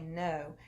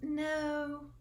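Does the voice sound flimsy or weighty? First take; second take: weighty; flimsy. First: It is said low and heavy. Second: It is said light and thin. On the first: The refusal is meant seriously. The speaker calls it right. "Do you hear the weight in my voice when I say no" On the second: The refusal sounds weak. The speaker calls it wrong. "that sounds flimsy"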